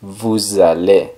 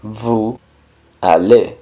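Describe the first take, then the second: First: Vous allez linked slowly as "voo-zah-LAY"; liaison. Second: Vous, pause, allez, with no Z between; words without liaison. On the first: Teacher shows the S joining the A, vous allez linked. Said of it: "se junta con la A y se pronuncia". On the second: Teacher builds the phrase word by word, Vous allez unlinked. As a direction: say Vous allez as separate "voo... ah-LAY". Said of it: "Pero en este caso, la S". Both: Shown as a demonstration.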